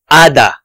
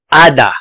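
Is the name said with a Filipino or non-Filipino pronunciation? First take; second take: Filipino; Filipino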